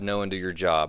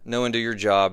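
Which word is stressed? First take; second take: your; do. First: The stress is on the word your. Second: The stress is on the word do.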